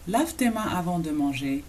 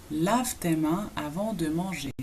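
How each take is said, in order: First: Said in the usual way. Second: "Lave tes mains avant de manger" slowly, in separated chunks; slow model. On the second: Shown as a demonstration. Teacher models hand-washing command for learners, slowly. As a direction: draw out the phrase for learners.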